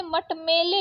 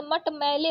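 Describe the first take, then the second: First: मटमेले with closed e in "mele"; wrong vowel. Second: Said in the usual way. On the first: Shown as a demonstration. Teacher reading the misspelling, मटमेले with plain e. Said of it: "मटमेले लिखा है". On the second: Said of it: "तो मटमैले होता है".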